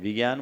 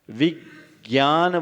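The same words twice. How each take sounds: First: The first syllable is short and unstressed. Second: The first syllable is stressed and lengthened. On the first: The speaker calls it wrong. "विज्ञान बोलते हैं क्या" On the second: The speaker calls it right. "विज्ञान बोलते हैं"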